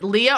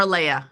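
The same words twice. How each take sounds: First: "Leah" said LEE-uh; name pronunciation Leah. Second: "Leia" said LAY-uh; name pronunciation Leia. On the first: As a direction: say "Leah" with an ee in the first syllable. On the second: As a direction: say "Leia" with an ay in the first syllable. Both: Shown as a demonstration. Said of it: "is it Leah or Leia".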